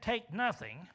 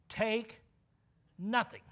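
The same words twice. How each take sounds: First: Said in the usual way. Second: Take, pause, nothing, each word set apart; stress on Take nothing. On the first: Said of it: "But what he said". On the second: Shown as a demonstration. Preacher spelling out the bare command for the congregation, word by word. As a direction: Take and nothing pulled apart by a pause, both a little louder. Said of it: "if that's all he said, then that's what that means".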